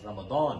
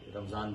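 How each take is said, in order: First: The middle consonant is a d sound. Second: The middle consonant is a z sound.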